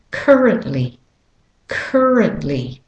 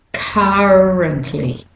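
First: Currently with an American "er" in CUR; American pronunciation, R-coloured first syllable of currently; American accent. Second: Currently slowly, British or Australian "uh" in CUR; British or Australian currently, first vowel drawn out without R; British or Australian accent. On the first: Teacher modelling for learners, American accent on currently. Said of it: "if you're saying it with an American accent". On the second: Teacher modelling for learners, British or Australian accent on currently. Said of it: "saying it with a British and Australian".

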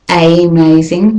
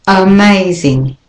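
First: Amazing with a full AY, AY-MAZING; amazing begun with a long AY; wrong way. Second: Amazing with a schwa start, uh-MAZING; amazing begun with a weak uh; right way. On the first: Teacher shows how not to say amazing. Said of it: "it's not amazing". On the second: Teacher models amazing with a schwa. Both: Shown as a demonstration.

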